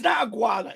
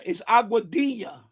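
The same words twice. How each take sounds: First: Aguada said as the wrong short name; not Aguada, flat and dismissive; wrong pronunciation. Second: Aguadilla said in full Spanish, ah-gwah-DEE-ya; correct pronunciation. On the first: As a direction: say Aguada the way the narrator got it wrong. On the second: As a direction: give Aguadilla its proper Spanish sounds. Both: Shown as a demonstration. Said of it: "it's not Aguada, it's Aguadilla".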